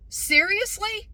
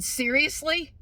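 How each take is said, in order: First: Very high, drawn-out disbelieving question; utterly incredulous. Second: Raised, disbelieving question; incredulous. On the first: Customer stunned that staff dropped English, utterly incredulous. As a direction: stretch it out in loud, mounting disbelief. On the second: Customer to staff suddenly speaking Spanish, incredulous. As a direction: ask it in open disbelief. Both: Retold or imitated.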